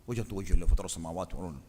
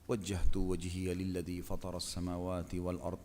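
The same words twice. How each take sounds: First: It is recited quickly and hurriedly. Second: It is recited slowly and calmly. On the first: The speaker calls it wrong. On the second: The speaker calls it right. "Sudah nafas tenang"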